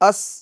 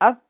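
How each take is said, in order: First: The consonant is hissed with a whistling sound. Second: The consonant is soft without any whistling sound. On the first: The speaker calls it wrong. "ये गलत है" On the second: The speaker calls it right. "ठीक है"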